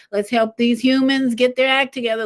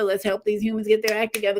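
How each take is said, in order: First: Eager urging. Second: Fast aside. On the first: The moon urges, first take. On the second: The moon urges, second take. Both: Pretend.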